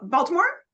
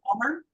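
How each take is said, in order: First: The name is said with all its syllables. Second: The name is squeezed into two short syllables. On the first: This is how a newcomer to the city says it. "I'm a transplant because I don't say Balmer" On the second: This is how many locals say it. "there are lots of people around here who do talk that way"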